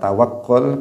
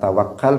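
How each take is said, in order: First: The last syllable has the vowel 'u'. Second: The last syllable has the vowel 'a'. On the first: It is the Arabic form of the word. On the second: It is the Indonesian form of the word. "kita mengucapkannya dalam bahasa Indonesia"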